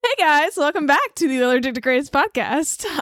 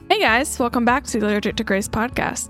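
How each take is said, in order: First: It is said loudly, with lots of enthusiasm. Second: It is said flatly, without much enthusiasm.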